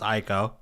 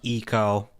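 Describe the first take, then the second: First: The name begins with an 'eye' vowel. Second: The name begins with an 'ee' vowel. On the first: This is the commonly heard pronunciation. "I've always heard it pronounced Ico" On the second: This is the reportedly official pronunciation. "apparently, Ico is pronounced Eco"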